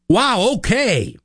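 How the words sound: It sounds supportive.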